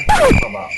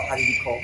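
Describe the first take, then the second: First: High exclaimed question. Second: Said in the usual way. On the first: Real, not acted. Repeats opening question much higher.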